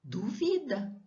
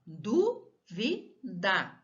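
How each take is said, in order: First: Duvida said du-VI-da, middle syllable stressed. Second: Dúvida very slowly in syllables, DÚ-vi-da; stress on DÚ. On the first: Teacher showing pupils the word without accent, stress on du-VI-da. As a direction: lean on VI in duvida, higher pitch. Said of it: "se eu tiro esse acento, fica". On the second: Teacher showing pupils where the accent falls, slow DÚ-vi-da. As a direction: draw out dúvida, leading with a stressed DÚ. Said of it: "vai acento no du". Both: Shown as a demonstration.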